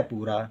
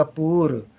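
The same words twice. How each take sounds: First: पूरा ending on an open रा; पूरा with both vowels, softer; full final aa. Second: पूर with no vowel after the र; पूर, long oo then stop at र; missing final aa. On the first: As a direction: finish पूरा softly with the aa sounded. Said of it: "रा में बड़े आ की मात्रा है". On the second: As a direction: end पूर on the r. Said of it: "मात्रा ना लिखे हम तो हो जाएगा पूर". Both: Shown as a demonstration.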